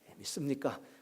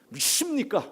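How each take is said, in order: First: It is asked in a plain, calm voice. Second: It is asked very loudly, with a twisting push.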